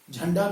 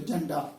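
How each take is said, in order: First: Said in the usual way. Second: झंडा said as जंडा, plain j without breath; aspiration missing. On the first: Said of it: "नहीं बोल पाते". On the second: Shown as a demonstration. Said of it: "इसको भी ज बोले".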